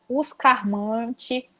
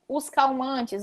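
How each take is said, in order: First: An R sound is used and the final S is dropped. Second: An L sound is used and the plural S is kept.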